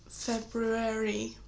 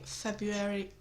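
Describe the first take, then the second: First: The first R sound is clearly pronounced. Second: The first R sound is left out. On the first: The speaker calls it right. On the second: The speaker calls it wrong.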